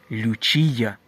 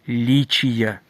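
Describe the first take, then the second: First: The first syllable has a 'yoo' vowel. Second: The first syllable has an 'ee' vowel. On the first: The speaker calls it wrong. "не лючія" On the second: The speaker calls it right. "а лічія"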